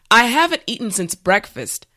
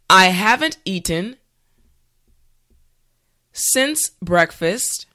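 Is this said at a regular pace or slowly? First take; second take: regular pace; slowly. First: The sentence is said at a regular pace. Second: The sentence is said slowly. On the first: "the last time at a regular pace" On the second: "this time repeat after me"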